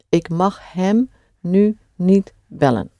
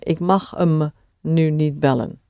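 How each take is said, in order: First: It is said carefully with full 'hem'. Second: It is said fast with 'hem' reduced. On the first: "we'll keep to him" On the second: "when you say it at speed, you will often hear"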